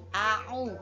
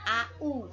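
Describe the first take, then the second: First: A throaty consonant separates the two vowels. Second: The two vowels run together with nothing between. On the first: The speaker calls it right. "tapi a'u ya" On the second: The speaker calls it wrong. "bukan au"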